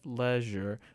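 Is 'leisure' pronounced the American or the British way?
British. The word is said with a British pronunciation. "she has like the British way of saying leisure"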